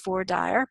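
It is said the Texas way.

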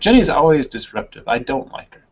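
The voice pauses after 'disruptive'. The speaker calls it right. "you put a break"

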